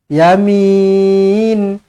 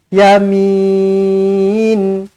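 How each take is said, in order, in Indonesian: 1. Vokal panjang, berakhir dengan konsonan. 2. Vokal panjang, berakhir dengan konsonan.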